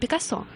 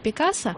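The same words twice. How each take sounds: First: The stress is on the last syllable. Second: The stress is on the second-to-last syllable. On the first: This follows the Russian norm, as the name came via France. "И поэтому мы говорим" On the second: This follows the name's original Spanish pronunciation. "надо на предпоследний слог делать ударение"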